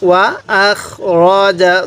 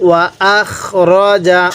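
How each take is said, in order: The two takes are said the same way.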